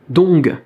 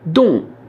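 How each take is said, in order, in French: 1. Le mot se termine par un g final bien prononcé. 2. Le mot s'arrête court avant tout g final. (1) "un peu comme en français où on dirait ong, dong" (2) "on ne prononce pas le G final, on s'arrête à la moitié"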